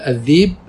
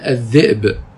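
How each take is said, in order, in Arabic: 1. الوسط مدّ طويل بالياء، بلا همزة. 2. في الوسط همزة. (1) "يقال الذيب بالياء" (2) "ويقال الذئب بالهمزة"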